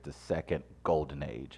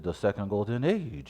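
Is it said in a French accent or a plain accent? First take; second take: plain; French. First: It is said in the speaker's plain accent. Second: It is said in a put-on French accent.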